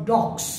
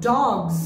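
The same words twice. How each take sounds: First: Dogs said as DOKS; wrong pronunciation. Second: Dogs with a voiced gz ending; correct pronunciation. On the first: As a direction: end dogs on a hard ks. (dogs ভুলভাবে ডকস) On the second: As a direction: stretch dogs into DAWGZ. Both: Shown as a demonstration. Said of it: "not dogs".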